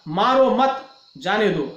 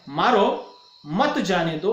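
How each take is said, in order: First: The break comes after the second word. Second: The break comes after the first word. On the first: The person should not be struck but let go. "उसको मारना नहीं है, छोड़ देना है" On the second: The person should be struck and not let go. "इस वाक्य का अर्थ है कि उसे मारना है"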